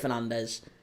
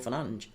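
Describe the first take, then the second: First: The name is said the way it looks written. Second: The name is said the way its owner says it. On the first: This is how most people say it. "It looks like Fernandes" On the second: This is how the player says his own name. "That's how he pronounces it"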